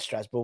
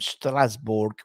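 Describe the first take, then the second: First: It is said with a French accent. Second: It is said with a German accent. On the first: "It's French" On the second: "I don't know why I did it in a German accent"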